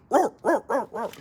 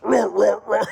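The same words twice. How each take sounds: First: Loud, high-pitched dog barks; barking dog imitation. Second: Loud, high dinosaur roars; T-Rex roar imitation. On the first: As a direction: bark like a little alarm dog. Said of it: "it's a barking dog". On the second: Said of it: "a T-Rex".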